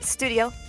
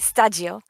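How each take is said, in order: First: The word is said with an English pronunciation. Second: The word is said with a Japanese pronunciation.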